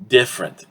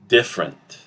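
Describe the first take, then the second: First: It is said with two syllables. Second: It is said with two syllables.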